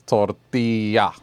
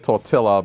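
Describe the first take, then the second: First: The double L is said as a Y sound. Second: The double L is said as an L sound. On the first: The speaker calls it right. "but it's tortilla. So the L is a, a Y" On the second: The speaker calls it wrong. "You'd be tempted to say"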